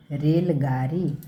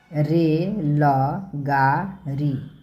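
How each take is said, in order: First: Said in the usual way. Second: Slow, drawn-out syllables. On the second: Shown as a demonstration. Teacher sounding out a word for children, slowly.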